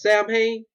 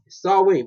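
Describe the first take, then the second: First: The word is said the way it looks. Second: The word is said unlike its written form. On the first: The speaker calls it wrong. "somebody pronounced that as Samhain, turn that off" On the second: The speaker calls it right. "Listen to me"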